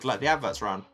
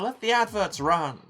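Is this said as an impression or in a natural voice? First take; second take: natural; impression. First: It is said in the speaker's ordinary voice. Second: It is said in a put-on celebrity impression voice.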